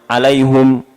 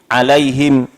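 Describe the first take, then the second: First: The word ends with hum instead of him. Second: The word ends on a bare m after hi. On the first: "ada yang mendhamahkan" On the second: "ada yang mensukunkan mim"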